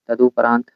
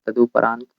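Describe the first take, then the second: No difference in how they are said.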